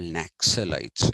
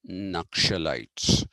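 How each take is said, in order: First: The middle consonants sound like 'ks'. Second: The middle consonants sound like 'ksh'. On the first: The speaker calls it wrong. "they are not called Naxalites" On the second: The speaker calls it right. "which is Ksha sound and not Ksa sound"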